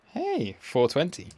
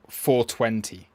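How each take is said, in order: First: "Hey, four twenty" lifted high and playful; amused callout. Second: Said in the usual way. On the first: Real, not acted. Streamer noticing the 420 joke on his chart, amused and playful. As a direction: point out the joke number with a grin.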